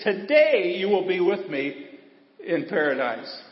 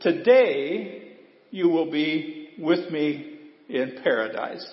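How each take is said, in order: First: "Today" hit first and firm, the rest at normal pace; preacher shows the emphasis on "Today" to his church; stress on Today. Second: Very slow, drawn-out scripture reading; a quoted promise, read slow and solemn; slow solemn quote. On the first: Shown as a demonstration. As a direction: lean on the word "Today". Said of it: "Jesus put it first for emphasis". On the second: Retold or imitated. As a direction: let each word of the promise land slowly. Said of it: "did you hear what Jesus said to him".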